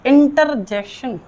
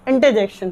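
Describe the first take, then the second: First: "इंटरजेक्शन" slowly, R sounded in inter; students' mispronunciation. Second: "इंटरजेक्शन" as inte-jekshan, R dropped; correct silent R. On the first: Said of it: "सारी की सारी गलत". ("इंटरजेक्शन" धीरे, र की आवाज़ के साथ) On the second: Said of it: "आर silent होता है". ("इंटरजेक्शन" में र silent, इंटे-जेक्शन) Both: Shown as a demonstration.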